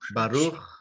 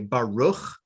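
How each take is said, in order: First: The R is a Spanish-style tapped R. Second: The R sounds like an English R. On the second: "the standard North American pronunciation is just like an R"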